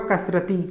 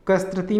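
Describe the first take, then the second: First: कसरती as "kasrati"; no t after the s in कसरती; correct कसरती. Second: कसरती as "kastrati", extra t; wrong कसरती. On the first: Teacher giving correct form, कसरती as "kasrati". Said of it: "शुद्ध रूप होगा". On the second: Teacher rejecting the error, कसरती as "kastrati". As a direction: slip a t into कसरती after the s. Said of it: "नहीं होगा". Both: Shown as a demonstration.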